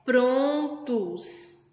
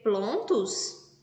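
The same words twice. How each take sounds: First: "prontos" said very slowly with a clear R; correct R. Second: "plontos" with L in place of R, as Cebolinha says it; Cebolinha's L for R. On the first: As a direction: stretch out "prontos", stressing the R. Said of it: "Essa é a maneira correta". ("prontos" bem devagar, com o R bem marcado) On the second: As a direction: say "plontos" trading the R for an L. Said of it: "Qual é a maneira correta de se falar". (pronúncia trocando R por L, "plontos") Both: Shown as a demonstration.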